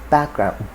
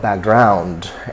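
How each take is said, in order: First: The stress falls in the standard position. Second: The stress falls where many Nigerians place it. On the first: The speaker calls it right. "The second is background" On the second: The speaker calls it wrong. "so it's not background as a lot of people would uh, say"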